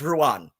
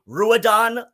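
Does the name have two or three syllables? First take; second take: two; three. First: The name is said in two syllables. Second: The name is said in three syllables. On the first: The speaker calls it right. "my name is pronounced Ruan" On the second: The speaker calls it wrong. "Does she say Ruadon like Poppy and Xena do?"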